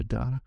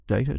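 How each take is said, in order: First: "data" said DAH-ta; DAH-ta pronunciation. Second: "Data" said DAY-ta; first syllable of "Data" rhymes with day; DAY-ta pronunciation. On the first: Guest offering the other version, "data" as DAH-ta. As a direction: open ah in the first syllable of "data". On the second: Guest asking how Americans say it, "Data" as DAY-ta. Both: Shown as a demonstration. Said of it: "How do you say it in America?".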